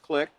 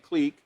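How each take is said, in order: First: The vowel is a short i sound. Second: The vowel is a long ee sound. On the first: "or commonly known as" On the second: "it's got the long E there"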